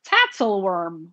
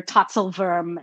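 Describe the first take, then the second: First: "Tatzelworm" said the English way, ending like the English word worm; anglicized pronunciation. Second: "Tatzelwurm" said the German way, tsa-tsel-voorm with a rounded oo; German pronunciation. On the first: Narrator showing the wrong, English way to say the name. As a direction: flatten "Tatzelworm" into plain English sounds. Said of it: "instead of, like". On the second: Narrator showing how a German creature name should sound, in German. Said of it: "it should be like". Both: Shown as a demonstration.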